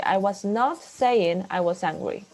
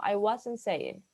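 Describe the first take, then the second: First: "not" said separately and louder, with a falling hit; stress on not. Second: Said in the usual way. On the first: Shown as a demonstration. Teacher showing students the emphatic form, stressing "not". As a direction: punch the word "not" in the sentence. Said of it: "este not se pronuncia más fuerte". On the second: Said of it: "si no quisiéramos hacer enfático, diríamos".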